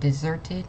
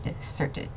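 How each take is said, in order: First: The middle consonant sounds like a Z. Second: The middle consonant sounds like an S. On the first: The speaker calls it right. "the S is like a Z kind of sound" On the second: The speaker calls it wrong. "not deserted"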